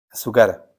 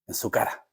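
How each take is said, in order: First: Said in the usual way. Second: Whispered, barely voiced. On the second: Preacher whispering Christ's taunt to the devil. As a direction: breathe it low, like a secret.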